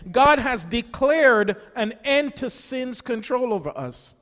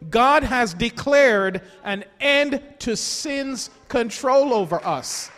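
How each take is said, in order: First: It is said at a normal pace. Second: It is said very slowly.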